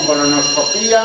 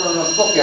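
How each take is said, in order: First: "colonoscopía" as colonosco-PÍ-a; long stressed Í in "colonoscopía". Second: "colonoscopia" as colono-SCO-pia; "colonoscopia" ending in one short "pia"; stress on SCO. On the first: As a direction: split the ending of "colonoscopía", hitting the Í. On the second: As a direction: hit SCO in "colonoscopia", light final pia. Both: Shown as a demonstration. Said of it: "lo mismo, colonoscopía o colonoscopia".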